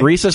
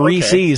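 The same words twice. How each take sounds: First: It is said like the monkey name rhesus. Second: It is said the common everyday way. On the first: "like the monkey" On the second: "like most of us say"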